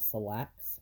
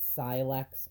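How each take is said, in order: First: The name sounds like the word 'selects'. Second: The name does not sound like 'selects'. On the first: "I've always pronounced it Selects, like chicken selects from McDonald's" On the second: "I don't know if you pronounce it Silex or Selects"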